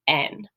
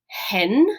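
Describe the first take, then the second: First: The word begins directly with the vowel. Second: The word begins with an H sound. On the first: "If I had a smooth breathing mark, ... this is pronounced N" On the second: "if you have the rough breathing mark over it, this is going to be pronounced hen with that sound at the beginning"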